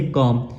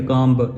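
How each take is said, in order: First: कॉम closed on m, no b; silent b. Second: कॉम ब with the final b voiced out; sounded b. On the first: Teacher giving the correct reading, silent b. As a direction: end कॉम on the m alone. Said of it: "लफ्ज़ पढ़ेंगे". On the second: Teacher warning against this reading, b sounded. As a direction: add an audible ब after the m. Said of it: "ऐसे नहीं पढ़ेंगे". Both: Shown as a demonstration.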